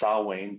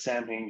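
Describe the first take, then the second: First: The middle consonant is pronounced as a W. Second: The middle consonant is pronounced as an M. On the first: The speaker calls it right. "the M is actually a W" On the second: The speaker calls it wrong. "if you pronounce it as Samhain, you're wrong"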